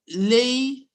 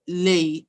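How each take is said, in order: First: The word is said on a high tone. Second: The word is said on a low tone. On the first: "is high tone" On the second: "is low tone"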